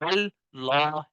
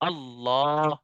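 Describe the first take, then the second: First: The first L sound is thin and light. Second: Both L sounds are heavy and full. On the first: The speaker calls it wrong. "पहला लाम बारीक पढ़ा ... ऐसे नहीं पढ़ना" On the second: The speaker calls it right. "दोनों लाम जो है, साकिन वाला लाम भी जो है मोटा होगा"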